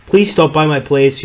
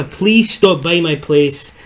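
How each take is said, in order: First: Second attempt at a South African accent, slightly higher and louder. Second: Put-on slow, high, botched South African accent drifting Scottish; Scottish-sounding accent. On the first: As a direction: lightly imitate a South African fellow's accent. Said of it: "trying to recreate a South African". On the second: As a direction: stretch it out in a Scottish-tinged accent. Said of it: "I'm doing a Scottish accent".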